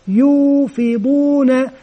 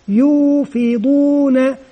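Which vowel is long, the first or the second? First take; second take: first; first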